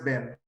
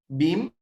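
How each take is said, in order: First: The vowel sounds like the one in 'ben'. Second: The vowel sounds like the one in 'bin'. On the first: This is how the East Coast says it. "Y en la zona East Coast, que es Nueva York" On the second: This is how the West Coast says it. "en la zona de California y demás, o sea, en la costa oeste"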